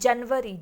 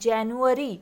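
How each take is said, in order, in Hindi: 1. बीच में v की आवाज़ है, जैसे janvari में। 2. बीच में yoo की आवाज़ है, v की नहीं। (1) "not January. अगर आप जनवरी बोलोगे तो आप स्पेलिंग में भी वी लगाओगे" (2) "we pronounce it as January"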